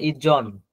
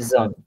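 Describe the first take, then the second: First: The middle consonant is hard, like 'j' in 'gym'. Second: The middle consonant is light and soft, like 'z'. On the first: The speaker calls it wrong. "এইভাবে হবে না, আপনি এভাবে পড়া যাবে না।" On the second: The speaker calls it right. "হালকা নরম করে"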